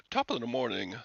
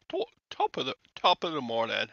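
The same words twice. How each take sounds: First: Half-hearted stock Irish greeting; failed Irish accent. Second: Louder, stumbling retry at Irish; badly faked Irish, starting high and breaking off; failed Irish accent. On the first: Acted. First go at talking Irish, faint fake accent. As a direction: attempt an Irish accent, barely there. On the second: Retrying the Irish greeting, loud botched accent. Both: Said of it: "I can't talk Irish".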